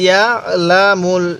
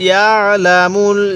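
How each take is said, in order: Both takes have the same delivery.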